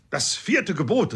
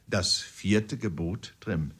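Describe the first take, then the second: First: Raised, higher, barked like a parade order; drill command. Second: Gentle and friendly. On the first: Uncle Toby drilling the corporal, loud barked command. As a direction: snap it out like a drill sergeant. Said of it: "erhob die Stimme und sprach hastig wie ein Exerzierkommando". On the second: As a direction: coax it out as if to a slow pupil. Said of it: "mit sanfter Stimme und einem freundlichen Kopfnicken". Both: A narrator's reading.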